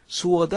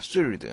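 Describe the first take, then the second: First: The W sound is pronounced after the S. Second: The W sound is silent after the S. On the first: The speaker calls it wrong. "아닙니다" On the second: The speaker calls it right. "W가 발음되지 않습니다"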